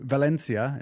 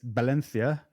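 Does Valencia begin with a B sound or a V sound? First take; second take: V sound; B sound. First: The word begins with a V sound. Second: The word begins with a B sound.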